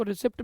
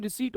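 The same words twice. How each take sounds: First: रिसिप्ट said with a clear p sound, ri-sipt; the students' mispronunciation रिसिप्ट, sounding the p; wrong pronunciation. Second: रिसीट said with a long ee and silent p, ri-seet; the right way: रिसीट, no p at all; correct pronunciation. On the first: Teacher to students, showing the wrong way they say रिसिप्ट with a p. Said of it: "कुछ बच्चे इसको रिसिप्ट भी बोलते हैं". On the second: Teacher to students, correcting to रिसीट said ri-seet with silent p. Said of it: "लेकिन रिसीट होता है". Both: Shown as a demonstration.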